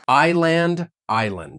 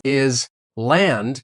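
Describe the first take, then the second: First: "Island." as EYE-lund, no s; silent s. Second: "Is land" with the s sounded; wrong pronunciation. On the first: Shown as a demonstration. Student repeats correctly, "Island." with silent s. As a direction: start "Island." on the I sound, no s. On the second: Real, not acted. Student mispronounces island, "Is land" with s. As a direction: say "Is land" as two words, s spoken. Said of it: "That is a very common mistake".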